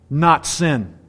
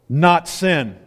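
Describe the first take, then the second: Both takes have the same delivery.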